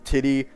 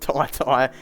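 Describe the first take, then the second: First: The name is said with short vowels, like 'titty'. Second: The name is said with long vowels, like 'tie-tie'. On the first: The speaker calls it wrong. "there's guys out here calling him Titty Washington Junior, and I'm just not going to do that" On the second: The speaker calls it right. "which I think is the correct way to pronounce his name anyway"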